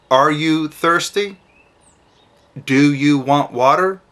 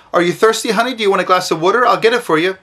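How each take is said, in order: First: Slow, simple, spaced-out question; slow short question. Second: Higher, chatty parent fussing; overloaded sweet question. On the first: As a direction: ask it gently, a few words at a time. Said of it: "Just say". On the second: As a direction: fuss over the child with too many words. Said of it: "So you don't say to your child". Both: Shown as a demonstration.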